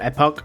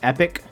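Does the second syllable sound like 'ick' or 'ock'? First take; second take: ock; ick. First: The second syllable sounds like 'ock'. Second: The second syllable sounds like 'ick'. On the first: "I think it's pronounced Epic or Epoch" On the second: "I think it's pronounced Epic or Epoch"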